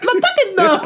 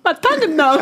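First: Slurred through a numb tongue with laughter; thick tongue lisp, laughing. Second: Slurred, laughing through a numb tongue; thick tongue lisp. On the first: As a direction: laugh while the tongue won't work. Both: Real, not acted.

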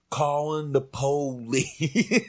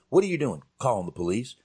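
First: Drawn-out, higher comic delivery with stretched syllables; imitating John Witherspoon. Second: Said in the usual way. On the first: Co-host mimics the actor's line from the movie, drawn-out imitation. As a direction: stretch out "po-lice" slowly, breaking into a laugh. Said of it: "He said". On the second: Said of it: "he didn't just say".

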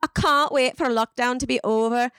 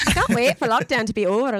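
First: Put-on one UK accent. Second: Put-on another UK accent. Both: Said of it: "all these different U K accents".

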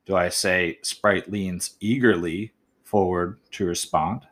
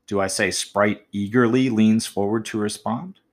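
First: Trying "leans eagerly forward", measured and slow; slower trial reading. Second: Eagerly lifted and stressed, rising at the end; trying out "eagerly" before "leans" with a stress. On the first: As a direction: read it slowly, testing the word order. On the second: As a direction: lean on eagerly to test it up front. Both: Shown as a demonstration. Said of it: "by putting that word eagerly in different spots".

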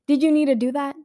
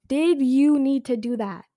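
First: Louder, higher demand; heated. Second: Slower, weighted echo of the question; heated, slower repeat. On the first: To the filmmakers, a louder heated demand. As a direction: really press the outrage. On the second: Repeating it at the filmmakers, slow and heated. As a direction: lean on each word. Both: Real, not acted. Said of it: "how heated I look".

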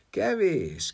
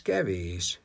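First: Kevés said high and firm; emphatic kevés. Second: Said in the usual way. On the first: A narrator's reading. Jágub rejecting Death's offer: Kevés, high and firm. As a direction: stress the first Kevés, up high. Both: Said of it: "felelte Jágub".

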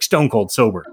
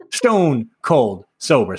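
First: Said in the usual way. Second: Stone, cold, sober spaced out slowly; slow, deliberate weight on every word of stone cold sober; each word stressed. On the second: Real, not acted. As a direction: land STONE, COLD and SOBER one at a time. Repeats it slowly for emphasis.

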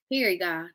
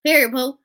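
First: Said in the usual way. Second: Louder, higher sassy sign-off; higher, punched-up casual slang; talking to a friend. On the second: Shown as a demonstration. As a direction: toss it out loud like slang to a friend. Same phrase said to a friend.

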